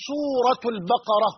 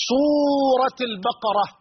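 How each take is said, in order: First: سورة read with -u ending; nominative case ending. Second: سورة read with -i ending, drawn out; genitive case ending. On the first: Teacher offering the other correct reading, nominative سورة. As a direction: link سورة as "suuratu l-baqara". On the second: Teacher giving the first of two correct readings, genitive سورة. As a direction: stretch سورة, linking it as "suurati l-baqara". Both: Shown as a demonstration. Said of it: "وكلاهما صحيح".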